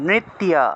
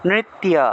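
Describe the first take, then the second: Both takes have the same delivery.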